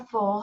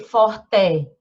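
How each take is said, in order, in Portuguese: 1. A vogal final soa como 'i'. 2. A vogal final soa como um 'e' claro. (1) "a gente lê" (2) "A gente não lê forte"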